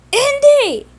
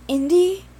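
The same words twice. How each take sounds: First: High, loud drawn-out scream. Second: A first call, moderately raised and higher. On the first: Simon screaming for his brother, much higher and louder. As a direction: scream his name in panic. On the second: Simon calling to his brother, a first raised call. Simon calls as Andy is taken. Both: Acted.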